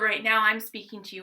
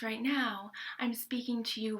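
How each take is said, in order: First: The voice is full, with no air heard. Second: The voice is breathy, with air clearly heard. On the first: "in full voice" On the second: "with some breath in there"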